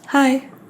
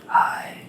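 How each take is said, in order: First: It is said in a normal voice. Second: It is said softly, in a whisper.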